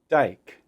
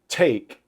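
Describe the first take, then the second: First: The T is released with little air, almost D-like. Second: The T is released with a strong puff of air. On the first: "Instead, it's more dike" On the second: "a T exploding into take"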